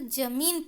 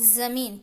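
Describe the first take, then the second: First: The first consonant is a j sound. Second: The first consonant is a z sound. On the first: The speaker calls it wrong. "बिना नुक्ता के पढ़ेंगे" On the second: The speaker calls it right. "नुक्ता के साथ पढ़ेंगे"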